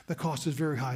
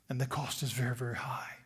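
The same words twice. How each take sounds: First: Said in the usual way. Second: Soft lower whisper; hushed warning. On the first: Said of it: "repeated aloud". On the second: Real, not acted. Preacher warning the congregation of the cost, hushed. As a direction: drop to a whisper to warn. Quieting for emphasis.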